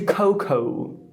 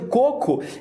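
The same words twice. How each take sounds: First: The first vowel glides like English oh. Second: The first vowel is a pure, steady o. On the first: The speaker calls it wrong. "ele pede uma água de coco" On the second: The speaker calls it right. "ele quer pedir uma água de coco"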